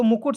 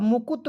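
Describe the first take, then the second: First: मुकुट ending in a hard retroflex T; मुकुट with a final ट sound. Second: मुकुट said with त replacing the final ट; dental mispronunciation. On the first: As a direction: end मुकुट with the tongue curled back. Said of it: "तो मुकुट सही हो गया". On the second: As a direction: end मुकुट as 'mukut' with tongue on teeth. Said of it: "अब मुकुट कोई शब्द होता है?". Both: Shown as a demonstration.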